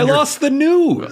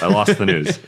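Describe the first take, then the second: First: It is said with lively, enthusiastic energy. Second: It is said flatly, with little energy. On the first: The speaker calls it right. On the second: The speaker calls it wrong.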